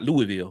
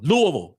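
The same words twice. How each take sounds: First: The name is said in an outsider pronunciation. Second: The name is said in the local pronunciation. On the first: The speaker calls it wrong. "not Louisville" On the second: The speaker calls it right. "that's how they say it"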